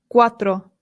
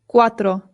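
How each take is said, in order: No difference in how they are said.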